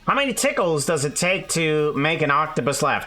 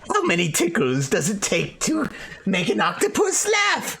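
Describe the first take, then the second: First: It is said in the speaker's ordinary voice. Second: It is said in a put-on character voice.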